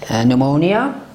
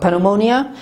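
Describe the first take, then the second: First: The P at the start is silent. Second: The P at the start is pronounced. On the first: The speaker calls it right. "مانند pneumonia" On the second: The speaker calls it wrong. "not pneumonia"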